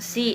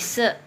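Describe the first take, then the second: First: The vowel is a clear ee sound. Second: The vowel is a dull uh-like sound. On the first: The speaker calls it wrong. "bacanya bukan si ini ya" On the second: The speaker calls it right. "tapi se"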